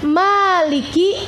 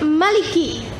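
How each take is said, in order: First: The first vowel is drawn out long. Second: The first vowel is kept short. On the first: "boleh dibaca panjang" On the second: "boleh dibaca pendek"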